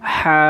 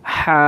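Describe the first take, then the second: First: The h is said with a strong breath. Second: The h is said with a strong breath.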